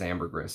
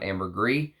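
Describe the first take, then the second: First: The word ends with an audible S sound. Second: The word ends without an S sound. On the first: The speaker calls it right. "You're supposed to actually say the S at the end" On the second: The speaker calls it wrong. "It's not ambergris"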